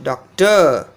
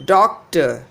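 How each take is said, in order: First: Doctor wrongly as doc-TUH; stress on second syllable. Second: Doctor as DOC-tuh; stress on first syllable. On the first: Teacher showing the mistake, doctor stressed as doc-TOR. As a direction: punch and lengthen TOR in doctor. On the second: Teacher showing correct stress, doctor as DOC-tor. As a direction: hit DOC in doctor, light falling ending. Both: Shown as a demonstration. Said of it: "Not doctor".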